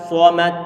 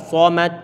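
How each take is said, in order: Both takes have the same delivery.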